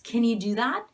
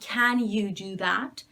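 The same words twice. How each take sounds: First: Can has a reduced uh schwa vowel. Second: Can has a full open ah vowel. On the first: The speaker calls it right. "it's can you do that? ... uh" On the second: The speaker calls it wrong. "It's not can you do that, ... you're saying ah instead of uh"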